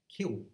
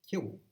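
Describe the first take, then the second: First: The final L becomes a vowel like oo. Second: The same.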